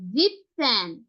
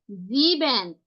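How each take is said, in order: First: জিপসেন as "zip-sen", the "-en" of the first part dropped; teacher modelling জিপসেন, p straight into "sen", falling at the end; shortened compound form. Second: জিবেন in two full syllables, "zee-ben"; teacher modelling জিবেন, long first vowel, falling at the end; full standalone form. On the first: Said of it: "এখানে কি বলছি". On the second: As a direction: say জিবেন with the whole "-ben" sounded. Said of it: "সাতকে আমরা কি বলছি". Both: Shown as a demonstration.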